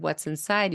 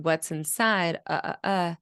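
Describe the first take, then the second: First: Rising question tune on inside; question rise. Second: "inside" falling, no question rise; flat question. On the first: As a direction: lift "inside" at the end as a real question. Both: Shown as a demonstration. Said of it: "you don't have that rising intonation".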